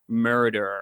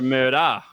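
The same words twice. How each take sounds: First: It ends with a strong, hard r sound. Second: It ends with a soft vowel, no r sound. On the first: "you guys do a hard E R, so you guys go like murder" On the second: "we do an A ... and we go murder"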